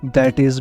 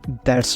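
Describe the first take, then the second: First: It is said as two full separate words. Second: It is said as one contracted syllable. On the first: "दैट इज भी" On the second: "इसका short form है"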